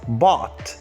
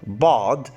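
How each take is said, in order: First: The word ends with a voiceless t sound. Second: The word ends with a voiced d sound. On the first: "it is pronounced as bot" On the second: "Look exactly how the d sound is pronounced"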